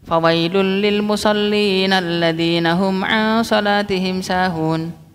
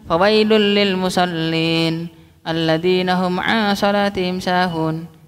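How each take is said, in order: First: It runs on without a pause after musallin. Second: It pauses after musallin before going on. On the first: Woe to those who pray yet are heedless of their prayer. The speaker calls it right. "langsung diwasal" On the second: Woe to those who pray, as if praying were a sin. The speaker calls it wrong. "Jadi jangan"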